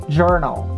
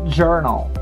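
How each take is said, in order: No difference in how they are said.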